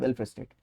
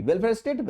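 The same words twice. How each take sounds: First: Welfare state lower and softer, falling; low falling close. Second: Welfare state higher, lifting on state; rising tune. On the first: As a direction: let welfare state sink to a quiet close. (welfare state धीमी, नीचे गिरती लय में) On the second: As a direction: pitch welfare state up as a cue. (welfare state ऊँची उठती लय में) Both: Shown as a demonstration. Teacher repeats key term twice.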